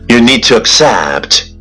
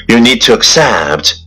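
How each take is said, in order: No difference in how they are said.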